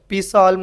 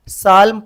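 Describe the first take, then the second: First: The word starts with a p sound before s. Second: The word starts with an s sound, no p. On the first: The speaker calls it wrong. "पी साल्म नहीं पढ़ते" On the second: The speaker calls it right. "साल्म पढ़ते अपन"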